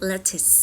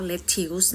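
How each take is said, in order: First: "lettuce" said as LET-is, short second vowel; correct lettuce vowel. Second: "lettuce" said as let-THIUS, with a "ew" vowel; common mispronunciation. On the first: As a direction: say "lettuce" ending in a short "tis". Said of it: "ออกว่า lettuce". (ออกเสียง "lettuce" เป็น เล็ต-ทิส) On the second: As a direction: say "lettuce" wrongly, ending in "tews". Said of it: "ไม่ออกเสียงว่า lettuce นะ". (ออกเสียง "lettuce" ผิดเป็น เล็ต-ทิวส์) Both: Shown as a demonstration.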